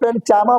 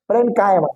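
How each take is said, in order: First: The middle consonant is a 'ch' sound. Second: The middle consonant is a 'k' sound. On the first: The speaker calls it wrong. "कुछ लोग उसको फ्रेंड चामा बोलेंगे, नहीं नहीं" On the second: The speaker calls it right. "यहाँ पे सी silent करो"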